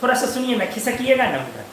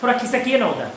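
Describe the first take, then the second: First: Soft, coaxing plea to move over; sweetly coaxing. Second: Soft, sweet plea with a lowered voice; lovingly. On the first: Student coaxing a seated classmate, sweet and soft. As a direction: ask the bench-mate nicely, gently. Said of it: "आराम से बोलते हो". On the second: Latecomer asking bench-mate lovingly, soft and sweet. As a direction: coax them gently to shift over. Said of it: "बड़ा प्यार से बोलते हो". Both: Pretend.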